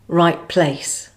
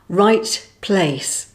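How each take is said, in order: First: The final T is dropped with a glottal stop. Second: The final T is fully pronounced.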